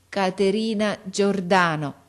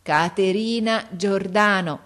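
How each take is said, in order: First: Each syllable slowly and carefully placed; a deaf girl sounding out her teacher's name; slow careful speech. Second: Slow, louder, each syllable pushed out; big voice. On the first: Girl answering the visitor, slowly and carefully. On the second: Girl presenting her friend to the father, big slow voice. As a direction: call the name out with a big slow voice. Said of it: "dicendo con la sua grossa voce". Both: Acted.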